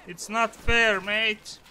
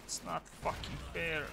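First: High, loud complaint; protest. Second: Much softer, sunk into resignation; resigned mutter. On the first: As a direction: cry out at the unfairness. Complaining after dying in game. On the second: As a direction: let it fall away, defeated. Repeating the complaint, deflated. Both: Real, not acted.

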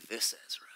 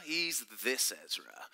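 First: Hushed whisper. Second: "this" leaned on, voice dropping low to close "Ezra"; stress on this. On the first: Retold or imitated. Teacher quoting Ezra to the class, whispering "This Ezra". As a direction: whisper "This Ezra" with no voice at all, breathy and secret. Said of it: "and he says". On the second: Shown as a demonstration. Teacher telling the group Ezra is special, pressing "this". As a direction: punch "this" to single Ezra out. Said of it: "not just any old Ezra".

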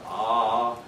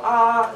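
First: A lower "ah" at a dropped pitch. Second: A high, loud "ah" at a raised pitch. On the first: Lecturer contrasting a lower "ah" for the class, low pitch. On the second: Lecturer demonstrating vocal pitch to class, high loud "ah". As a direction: sing out "ah" up high and loud for the students. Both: Shown as a demonstration. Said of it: "So you go ah, as opposed to ah".

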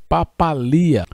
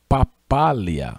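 First: "papalia" stressed on li with a hiatus i-a; "papalia" with the weight on li. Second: "papália" stressed on the second syllable pá, slow; slow "papália", lean on pá. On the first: Teacher showing the student's "papalia" stressed on li. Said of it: "colocou o acento aqui no i". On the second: Teacher showing the student's "papália" stressed on pá, slow. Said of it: "ele colocou um acento". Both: Shown as a demonstration.

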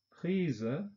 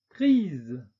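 First: 'Prise' said the German way, with a final schwa; German 'Prise' with a trailing schwa; German-style. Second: 'prise.' said the French way, with a released voiced z; French 'prise.' with no schwa. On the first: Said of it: "deutsche Aussprache ... Schwarlaut". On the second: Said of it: "französischen Aussprache mit Detente". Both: Shown as a demonstration.

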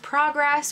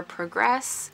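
First: "progress" said PRAH-gress, short ah vowel; American PRAH-gress; first take of progress. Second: "progress" said PROH-gress, long oh vowel; British-style PROH-gress; second take of progress. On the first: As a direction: say "progress" with the ah of prom. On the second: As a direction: say "progress" with the oh of pro. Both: Shown as a demonstration. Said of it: "progress or progress".

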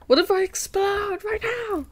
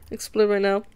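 First: Very high, squeaky mock panic; high-pitched excitement. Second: Said in the usual way. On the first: Streamer overwhelmed by nice comments, high playful squeal. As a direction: squeal it as if about to burst.

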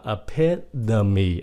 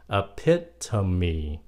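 First: EPITOME as "e-PID-a-mee"; American pronunciation. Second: EPITOME as "e-PIT-a-mee" with clear T; correct pronunciation. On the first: Teacher shows how Americans say it, EPITOME with a D. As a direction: soften the T of EPITOME to a D. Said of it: "âm D". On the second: Teacher shows the true reading, EPITOME with a T. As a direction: say EPITOME in four syllables, crisp T. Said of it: "thật sự trong cái chữ này nó là". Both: Shown as a demonstration.

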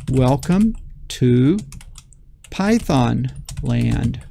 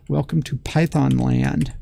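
First: Drawn out, typing as he speaks; slow dictation. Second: Said in the usual way. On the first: Shown as a demonstration. Teacher typing the greeting, slow dictation. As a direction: read the words out slowly while typing. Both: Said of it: "and then I'm going to say".

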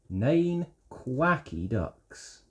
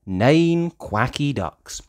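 First: Soft slow read. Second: Said in the usual way. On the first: Acted. Softer slower repeat.

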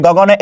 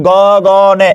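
First: Said in the usual way. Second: গগনে stretched very slowly, go-go-ne; slow sounded-out গগনে; syllable by syllable. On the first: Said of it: "এ শব্দটা". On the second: Shown as a demonstration. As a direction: hold each syllable of গগনে, ending on open e. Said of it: "শব্দটা শেষে কি আছে".

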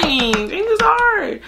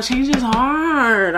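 First: Slow, high drawn-out repeat. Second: Slow, high drawn-out. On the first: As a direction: lift it high and drag each word. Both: Shown as a demonstration.

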